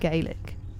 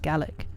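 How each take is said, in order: First: It is said in a non-Scottish pronunciation. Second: It is said in the Scottish pronunciation. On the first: "I say Gaelic" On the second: "in Scotland they say Gaelic"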